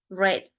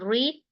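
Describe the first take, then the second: First: The vowel is short, like 'red'. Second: The vowel is long, like 'reed'. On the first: It is the past tense of the verb. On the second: It is the base form of the verb.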